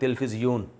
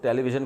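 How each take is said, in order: First: The word starts with 'til' and ends in 'fizyun'. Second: The word starts with 'te' and ends in 'vision'. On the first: This is how the word is said in Arabic. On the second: This is the English form of the word.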